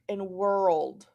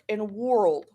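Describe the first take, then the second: First: The vowel is said like 'er'. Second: The vowel is said like 'or'. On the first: The speaker calls it right. "We say word, work, and world; they say er" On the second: The speaker calls it wrong. "it would be ward, work, and world"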